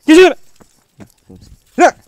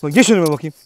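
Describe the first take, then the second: First: Far higher, full-voiced yell; high furious shout. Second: Loud order. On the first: Ordering the dog to get in front, furious shout. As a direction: scream the order out. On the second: Ordering dog to walk ahead. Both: Real, not acted.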